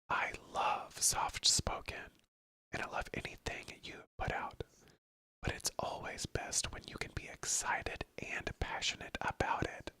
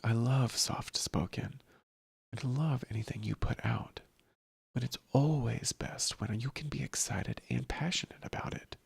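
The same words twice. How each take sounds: First: It is whispered without voice. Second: It is spoken softly with voice, like a narrator.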